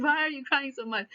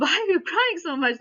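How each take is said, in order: First: A hint of a hurt child echoing back; lightly voiced boy, further upset; upset kid. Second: A father gently asking, pitched up and louder; concerned dad. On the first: Kid throws the question back at dad, mildly upset. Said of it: "Now he's further upset. He's like". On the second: Retold or imitated. Dad asks his crying son why, concerned and raised. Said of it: "So the dad goes and asks him".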